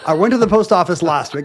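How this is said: It is told with confident, lively enthusiasm.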